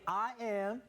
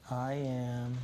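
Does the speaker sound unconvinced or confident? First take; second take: confident; unconvinced. First: It sounds confident and full of belief. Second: It sounds flat and unconvinced.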